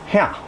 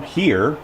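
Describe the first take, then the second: First: It is said in a Cajun Louisiana accent. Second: It is said in a standard American accent. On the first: "They pronounce it here" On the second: "which you and I know"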